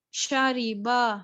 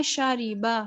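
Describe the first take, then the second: First: Slow شاریبا with a full, heavy را; heavy ra, wrong. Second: شاریبا with a thin, light را; thin ra, right. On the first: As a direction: drag شاریبا with a thick را. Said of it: "شاریبا نہیں پڑھنا". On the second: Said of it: "بلکہ باریک sound". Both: Shown as a demonstration.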